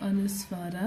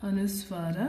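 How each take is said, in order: The two takes are said the same way.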